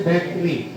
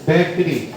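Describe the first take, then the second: No difference in how they are said.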